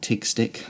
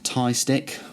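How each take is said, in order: First: The name ends with a hard g sound. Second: The name ends in a plain vowel sound. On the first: "or TIG stick" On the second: "I call it the tie personally"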